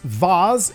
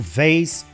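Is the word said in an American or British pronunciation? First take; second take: British; American. First: The word is said with a British pronunciation. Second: The word is said with an American pronunciation. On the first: "Vase é mais como falam na Grã-Bretanha" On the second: "eu vou manter o vase, que a gente está falando com digamos assim, um sotaque de um inglês mais norte-americano"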